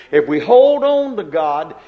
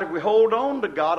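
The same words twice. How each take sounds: First: "hold" punched, louder; preaching to the flock, "hold" driven home loudly; emphatic preaching. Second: Said in the usual way. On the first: Shown as a demonstration. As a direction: hammer the word "hold".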